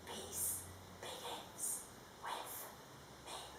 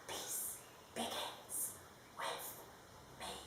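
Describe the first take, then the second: First: It is whispered. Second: It is whispered.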